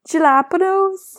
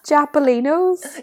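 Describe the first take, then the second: First: It is said with the usual standard sounds. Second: It is said with sounds swapped, jappolinos. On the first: The speaker calls it right. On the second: The speaker calls it wrong.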